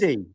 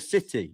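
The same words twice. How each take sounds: First: The middle consonant sounds like a soft d. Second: The middle consonant is a clear t. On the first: The speaker calls it wrong. "you say city instead of city" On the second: The speaker calls it right. "It's a T, not a D"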